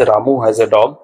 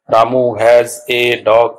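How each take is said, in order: First: Said in the usual way. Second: Very slow, each word set apart; slow teacher's word-by-word reading. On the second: Shown as a demonstration. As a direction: read out "Ramu has a dog" one separate word at a time. Separates the sentence into words.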